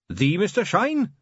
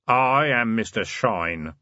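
First: High, slow, disbelieving question; astonished. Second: Slow, grave self-introduction; deep voice. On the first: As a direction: ask in awe. Carrot stunned by the name. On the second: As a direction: announce the name slowly and gravely. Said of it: "a deep voice from the doorway said". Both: Acted.

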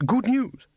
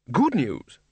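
First: Jumps much higher on the first good news; a nervous wizard yelps the words back in disbelief; startled disbelief. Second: Said in the usual way. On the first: A narrator's reading. Ridcully squirms, baffled.

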